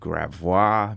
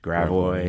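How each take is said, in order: First: It is said with the original French pronunciation. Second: It is said with the local Americanized pronunciation. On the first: This is the original form of the name. "original French" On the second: This is the form changed by later settlers.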